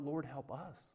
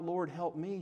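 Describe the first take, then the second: First: Much softer, hushed plea; soft cry to God. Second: Said in the usual way. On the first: Retold or imitated. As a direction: let the prayer sink to a hush. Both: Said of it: "she cries out".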